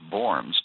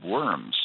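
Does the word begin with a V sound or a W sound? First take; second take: V sound; W sound. First: The word begins with a V sound. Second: The word begins with a W sound. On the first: "In German, the W is pronounced like a V" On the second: "many people in America just call it the Diet of Worms"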